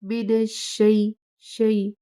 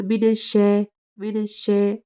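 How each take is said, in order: First: शई said softly and slowly; शई gently, the ई soft; soft correct take. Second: शै said louder with a flat ऐ sound; wrong take. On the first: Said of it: "इसे बहुत ही नरमी से अदा करना है". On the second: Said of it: "इसे ऐसे नहीं अदा करना". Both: Shown as a demonstration.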